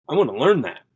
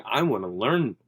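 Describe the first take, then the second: First: Pushed higher and louder on learn that; hungry to learn, voice jumping up; eager emphasis. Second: Said in the usual way. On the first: Retold or imitated. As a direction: land hard on learn, eager to know. Retold excited realization.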